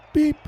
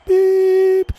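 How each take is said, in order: First: Short electronic beep; one brief timer tone; imitated countdown beep. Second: Long, high, loud beep; imitated final beep. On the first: Game master sounds the start timer, short imitated beep. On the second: Game master sounds the race start, long high beep. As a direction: hold the last timer tone high.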